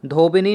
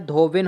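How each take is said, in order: First: धोबिनी with an extra final ii; wrong form. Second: धोबिन ending on a bare n; correct form. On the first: Teacher showing the wrong feminine, धोबिनी ending in nii. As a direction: end धोबिनी on a sounded nii. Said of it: "नहीं होता है". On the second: Teacher giving the right feminine, धोबिन ending in n. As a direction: stop धोबिन at the n, no final vowel. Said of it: "होता है". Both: Shown as a demonstration.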